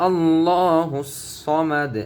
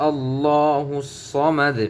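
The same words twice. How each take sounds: No difference in how they are said.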